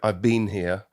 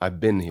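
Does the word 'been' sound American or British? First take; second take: British; American. First: 'Been' is said with a British vowel. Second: 'Been' is said with an American vowel.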